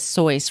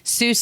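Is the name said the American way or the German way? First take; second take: German; American. First: The name is said the German way, rhyming with voice. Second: The name is said the Anglicized American way. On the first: "the German pronunciation is Seuss, rhyming with voice" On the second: "Seuss is an Anglicized, Anglicized, excuse me, American version"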